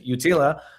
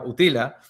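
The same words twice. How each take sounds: First: It is pronounced the English way. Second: It is pronounced the Spanish way. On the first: "en inglés es Utila" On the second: "en español sería Utila"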